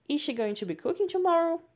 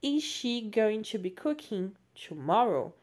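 First: Tomorrow rising high and loud as a real question; better question intonation. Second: Said in the usual way. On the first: Shown as a demonstration. Teacher retakes the question with livelier intonation. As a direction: ask it, lifting sharply on tomorrow. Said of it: "Ficou numa entonação melhor". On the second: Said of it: "o verbo to be vai lá para frente".

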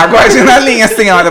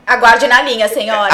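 First: High, loud call-centre recording voice; phone menu voice. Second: Loud hold-line operator voice; phone menu voice. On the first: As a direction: play the hold message over the phone. (voz de gravação de espera, aguda e alta) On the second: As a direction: announce it like a call centre recording. (voz de atendimento telefônico) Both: Pretend. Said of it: "vou botar a musiquinha".

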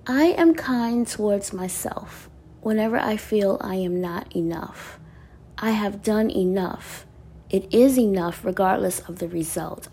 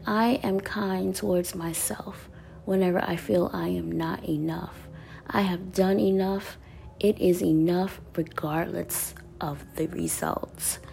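First: Said in the usual way. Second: Reading the card again in a soft near-whisper; softer reread. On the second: Shown as a demonstration. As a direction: repeat it softly to yourself, half whispered. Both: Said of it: "I said".

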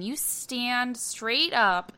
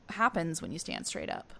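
First: Slowed-down quote, drawn out. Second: Said in the usual way. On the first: Retold or imitated. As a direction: stretch every word slowly. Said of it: "Lori Petty saying". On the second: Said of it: "continue what".

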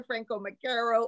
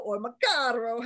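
First: Macaro said "muh-CARE-oh"; Anglicized surname. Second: Macaro said "muh-CAR-oh"; Italian-style surname. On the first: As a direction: middle of Macaro rhymes with "care". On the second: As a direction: open "ah" in the middle of Macaro. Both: Shown as a demonstration. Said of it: "however you wanna say it".

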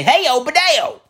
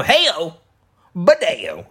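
First: "Heyo, Badeo" run together high with no pause. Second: "Heyo," then a clear pause before "Badeo"; pause between. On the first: Mocking the newcomer who gets the catchphrase wrong, rushed, no pause. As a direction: rush "Heyo, Badeo" with no gap. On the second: Showing how a real regular greets him, with the pause. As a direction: leave a beat after "Heyo" before "Badeo". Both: Shown as a demonstration. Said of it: "you gotta have the pause between heyo and Badeo".

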